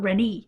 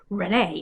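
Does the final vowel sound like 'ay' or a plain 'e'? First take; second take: plain e; ay. First: The final vowel is a plain 'e' sound. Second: The final vowel is an 'ay' sound. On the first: The speaker calls it wrong. "not Renee" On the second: The speaker calls it right. "the last E on her name has the accent mark to indicate that it's an A sound"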